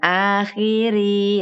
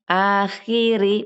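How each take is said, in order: First: The final vowel is stretched out longer. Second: The final vowel is held for one short count. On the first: The speaker calls it wrong. "bukan akhiri" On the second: The speaker calls it right. "rinya satu"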